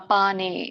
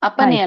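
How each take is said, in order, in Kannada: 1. ಎರಡನೇ ಉಚ್ಚಾರಾಂಶದ ಸ್ವರ ದೀರ್ಘವಾಗಿದೆ. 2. ಎರಡನೇ ಉಚ್ಚಾರಾಂಶದ ಸ್ವರ ಹ್ರಸ್ವವಾಗಿದೆ. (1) "ಪಾ ಇದೆಯಲ್ಲ ಅಲ್ಲಿ" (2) "ಅಪನೆ ಅಲ್ಲ ನೋಡಿ"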